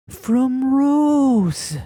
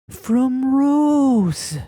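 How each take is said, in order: First: It is said in a dramatic, theatrical way. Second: It is said in a dramatic, theatrical way.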